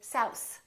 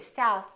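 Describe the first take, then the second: First: The th sounds like an s. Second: The th is exaggerated with the tongue stuck out. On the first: "they say souse, because they're pulling in their tongue too much" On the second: "You don't have to say south. If you speak like that, it could really slow down your speech"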